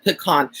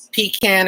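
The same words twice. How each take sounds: First: "pecan" said pih-KAHN, stress on the second syllable; pronounced puh-KAHN. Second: "pecan" said PEE-can, stressed first syllable; pronounced PEE-can. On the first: Streamer offering the other side, pecan as puh-KAHN. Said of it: "or is it pecan?". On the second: Streamer asking viewers about pie, pecan as PEE-can. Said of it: "It's pecan or is it pecan?". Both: Shown as a demonstration.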